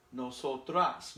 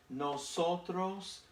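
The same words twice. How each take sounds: First: "nosotras" with a clear open A at the end; teaching pronunciation. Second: Slow, clear nosotros with the final O drawn out; teaching pronunciation. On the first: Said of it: "Nosotras is for the ladies". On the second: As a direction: stretch out "Nosotros" and land on a round O at the end. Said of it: "nosotros is for the boys". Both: Shown as a demonstration.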